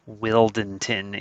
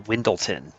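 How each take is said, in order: First: The L sound comes before the N sound. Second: The L sound comes after the N sound. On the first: The speaker calls it right. "is how you're supposed to say his name" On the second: The speaker calls it wrong. "I'm trained to say this wrong. I call him a Windleton"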